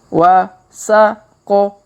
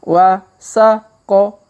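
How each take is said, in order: No difference in how they are said.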